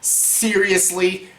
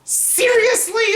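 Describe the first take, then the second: First: Drawn out, slow and flat-toned; slow, unimpressed disbelief; a long, tired seriously; slow deadpan. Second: Seriously jumping way up high; incredulous squeal. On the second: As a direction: squeak it out in disbelief. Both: Retold or imitated. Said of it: "I'm like".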